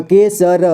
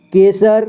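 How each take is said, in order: First: केसर slowly split as के, स, र; syllable by syllable. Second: Said in the usual way. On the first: Shown as a demonstration. Teacher showing learners केसर, slowly sounded out. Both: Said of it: "इसे पढ़ेंगे".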